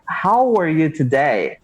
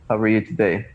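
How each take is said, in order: First: It is spoken clearly with the mouth wide open. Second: It is mumbled with the mouth barely open. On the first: The speaker is not afraid to open their mouth. The speaker calls it right. "open your mouth like this" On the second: The speaker is afraid to open their mouth. The speaker calls it wrong. "People want to speak English like this"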